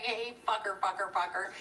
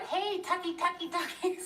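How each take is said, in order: First: Said in the usual way. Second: High sing-song calling out; calling the dog. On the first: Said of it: "Sounds like you're saying". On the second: Retold or imitated. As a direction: call the dog home across the yard. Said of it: "When we're screaming outside".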